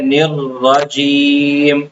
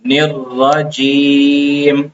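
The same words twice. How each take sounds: First: The r sound is held long and doubled. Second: The same.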